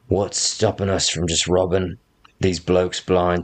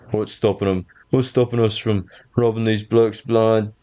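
First: It is spoken without the character's put-on voice. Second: It is spoken in the character's put-on voice. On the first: The speaker calls it wrong. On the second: The speaker calls it right.

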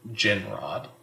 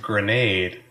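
First: It is said like 'ginrod', with a short first vowel. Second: It is said like 'grenade', with a long second vowel. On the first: The speaker calls it wrong. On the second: The speaker calls it right.

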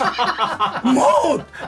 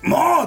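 First: The voice cracks and flips upward. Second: It is said in a plain, steady voice.

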